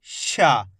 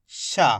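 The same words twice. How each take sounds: First: शा with a retroflex sh, tongue curled back, falling; retroflex sha. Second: शा with a palatal sh, tongue toward the hard palate; palatal sha. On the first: Teacher contrasts it with the first letter, retroflex sha. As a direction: model शा as the murdhanya sha. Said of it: "और इसको". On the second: Teacher recalls the first of two similar letters, palatal sha. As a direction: model शा as the talavya sha. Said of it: "इसको कैसे पढ़ा अपन ने?". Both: Shown as a demonstration.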